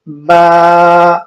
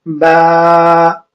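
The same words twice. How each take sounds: First: The letter name ends in an 'ah' vowel. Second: The letter name ends in an 'ah' vowel.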